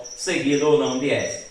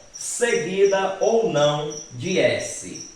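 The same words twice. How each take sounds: First: Said in the usual way. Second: Slow, drawn-out reading of the rule; slow dictation. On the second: Shown as a demonstration. Teacher dictating "seguida ou não de S" slowly to the class. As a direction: spell out "seguida ou não de S" slowly for students to copy.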